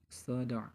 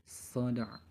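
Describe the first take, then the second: No difference in how they are said.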